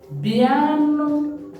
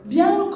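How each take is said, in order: First: It is said in a warm, affectionate tone. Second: It is said in an irritated, angry tone. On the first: A fond, affectionate call to come. "this is come, but in an endearing manner" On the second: An impatient demand to come. "you're angry already, you can say biano"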